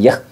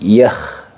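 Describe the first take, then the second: First: The final kh sound is cut short. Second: The final kh sound flows on continuously. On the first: The speaker calls it wrong. "bukan yakh" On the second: The speaker calls it right. "sifatnya ngalir"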